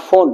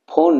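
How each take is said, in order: First: "ফোন" with a plosive p-h instead of f; wrong initial sound. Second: "ফোন" opening on a true English f; F sound. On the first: Teacher showing students what not to say, "ফোন" with plosive p-h. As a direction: say "ফোন" opening on a popped, aspirated p. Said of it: "not ফোন". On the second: Teacher showing students the proper sound, "ফোন" with an f. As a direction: say "ফোন" with lip contact for an f. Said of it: "এফ এর উচ্চারণটা". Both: Shown as a demonstration.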